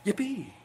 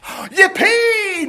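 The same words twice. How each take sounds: First: Much softer, understated yippee; subdued cheer. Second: Gasp, then high drawn-out whoop; loud cheer. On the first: Shown as a demonstration. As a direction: give a small, muted cheer. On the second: Acted. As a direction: cheer in hammed-up glee. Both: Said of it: "I don't want quite that loud".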